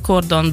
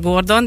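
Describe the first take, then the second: First: The word begins with a voiceless K sound. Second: The word begins with a voiced G sound. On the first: The speaker calls it right. "Cordon Bleu a helyes kiejtése" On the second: The speaker calls it wrong. "Elterjedtebb az a Gordon"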